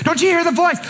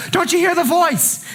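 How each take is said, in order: First: Said in the usual way. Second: Louder repeat. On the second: Acted.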